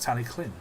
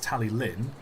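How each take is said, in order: First: The double L is not a plain L. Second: The double L is said as a plain L. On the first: The speaker calls it right. "It's Tally-Llyn" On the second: The speaker calls it wrong. "some people think it's Tally-Lin because it's two L's"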